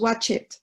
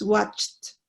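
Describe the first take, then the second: First: The ending is said as an extra syllable. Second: The ending adds no extra syllable. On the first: The speaker calls it wrong. "no decimos watch it" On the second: The speaker calls it right. "no va a sonar, ... es watched"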